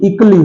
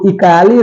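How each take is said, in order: First: No vowel is heard between 'k' and 'lee'. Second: An extra 'a' vowel is heard before 'lee'. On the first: The speaker calls it right. "बल्कि इकली होता है" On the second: The speaker calls it wrong. "इकाली नहीं होता है"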